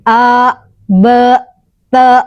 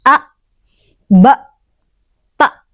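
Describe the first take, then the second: First: The glottal sound is released without holding. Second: The glottal sound is held back firmly. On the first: The speaker calls it wrong. "Jadi bukan" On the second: The speaker calls it right. "suaranya tertahan"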